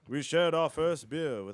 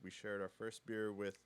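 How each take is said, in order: First: It is read in a lively, enthusiastic voice. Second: It is read in a flat, low-energy voice. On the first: The speaker calls it right. "That's so much better" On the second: The speaker calls it wrong. "Don't sound like you're just dying"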